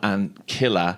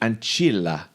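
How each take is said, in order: First: The c in ancilla sounds hard. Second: The c in ancilla sounds Italian-style. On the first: "would say not ancilla" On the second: "if it was Italian, it would be ancilla"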